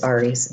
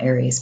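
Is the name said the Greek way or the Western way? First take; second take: Greek; Western. First: The name is said the original Greek way. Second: The name is said the common Western way. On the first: The speaker calls it right. "actually that's how you say it" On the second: The speaker calls it wrong. "It's not Aries, but you know, in Western cultures, that's how we're saying it"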